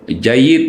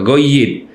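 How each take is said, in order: First: The word starts with a soft J sound. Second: The word starts with a hard G sound.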